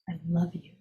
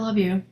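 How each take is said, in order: First: It is said gently, with warmth. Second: It is said flatly, without warmth. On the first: The words are said with real feeling. The speaker calls it right. "that's different than I love you" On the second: The words are said without real feeling. The speaker calls it wrong. "if they're not saying it with warmth"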